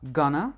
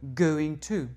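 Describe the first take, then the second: First: The words are blended into one short word. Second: Each word is said fully and separately.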